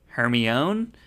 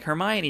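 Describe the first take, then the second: First: The name is sounded out as spelled. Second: The name is said in its usual form. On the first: The reader guessed from the written word. The speaker calls it wrong. "did you happen to say it maybe Hermione?" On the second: This is how the film says it. The speaker calls it right. "they're like, Hermione"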